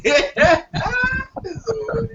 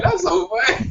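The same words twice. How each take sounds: First: Slowed down, laughing through the words; real laugh breaking up the line; wheezing with real laughter. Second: Said in the usual way. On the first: Real, not acted. Laughing at the buffet joke.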